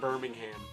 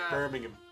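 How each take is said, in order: First: The name is said in an American accent. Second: The name is said in a British accent. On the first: The speaker calls it wrong. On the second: The speaker calls it right.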